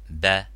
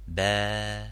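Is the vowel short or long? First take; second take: short; long. First: The vowel is short. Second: The vowel is long. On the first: "la fatha" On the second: "les voyelles longues comme"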